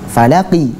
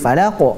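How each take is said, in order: First: The word ends with a short i vowel. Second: The word ends on a stopped q sound. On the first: "Tadinya falaqi" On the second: "karena berhenti menjadi falaq"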